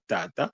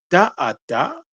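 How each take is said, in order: First: The syllables are said quickly and run together. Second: The syllables are said slowly and kept apart.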